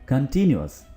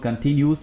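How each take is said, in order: First: The ending has two syllables, '-yoo-us'. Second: The ending is one syllable, '-yoos'. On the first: The speaker calls it right. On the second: The speaker calls it wrong.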